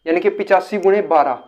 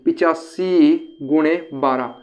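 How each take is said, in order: First: Said in the usual way. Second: पिचासी गुणे बारह spoken slowly, word by word as if calculating; slow working-out. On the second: Shown as a demonstration. Teacher slowly works the sum for students. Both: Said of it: "तो आप कैसे करोगे".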